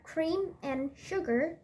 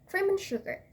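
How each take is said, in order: First: The word 'and' is said in full. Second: The word 'and' is reduced and weak. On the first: The speaker calls it wrong. "Not cream and sugar" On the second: The speaker calls it right. "but cream and sugar"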